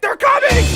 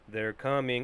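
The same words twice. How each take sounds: First: It is said in a panicked, frightened way. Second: It is said flat, with no emotion.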